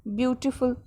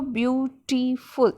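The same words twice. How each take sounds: First: Said in the usual way. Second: "ब्यूटीफुल" slowly as ब्यू, टी, फुल; teacher's slow, segmented "ब्यूटीफुल"; divided into three syllables. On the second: Shown as a demonstration. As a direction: break "ब्यूटीफुल" into three distinct beats. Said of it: "तीन part में हमने इसको divide करके pronounce किया".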